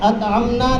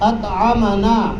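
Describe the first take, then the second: First: The m has no vowel after it. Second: The m is followed by a short a vowel. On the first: We ourselves fed. The speaker calls it wrong. "अतअमना नहीं पढ़ना" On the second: He fed us. The speaker calls it right. "मीम पर ज़बर"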